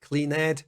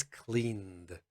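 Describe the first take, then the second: First: Questioning clean-ed with a wrong syllable; mock the error, clean-ed; wrong extra syllable. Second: Very slow one-syllable cleaned; the correct way, stretched out slowly. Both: Shown as a demonstration. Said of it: "No, it's cleaned".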